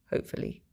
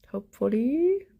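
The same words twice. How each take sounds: First: Breathy whispered hope. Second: Higher, lilting hopeful rise. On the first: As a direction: whisper it to yourself. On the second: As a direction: lift it up hopefully. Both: Real, not acted. Wishful repeat of hopefully.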